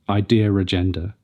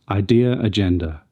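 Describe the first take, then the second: First: An r sound links the two words. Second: No r sound links the two words. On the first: The speaker calls it wrong. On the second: The speaker calls it right.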